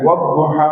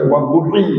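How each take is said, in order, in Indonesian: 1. Kata itu diakhiri dengan vokal 'a' panjang. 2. Kata itu diakhiri dengan vokal 'i' pendek. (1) "Wadduha macam alif" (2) "kalau baca baris bawah kita baca wadduhi"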